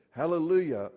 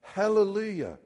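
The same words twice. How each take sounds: First: Loud Hallelujah; shouted hallelujah. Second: Hallelujah cried out high and loud; shouted hallelujah. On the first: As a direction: call out Hallelujah. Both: Acted.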